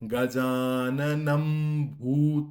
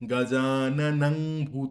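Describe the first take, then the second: First: The first word ends with an m sound. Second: The first word ends with an ng sound. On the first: The speaker calls it right. "অনুস্বারের উচ্চারণে কিন্তু ময়ের উচ্চারণ করতে হবে" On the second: The speaker calls it wrong. "গজাননং ভূত করলে চলবে না"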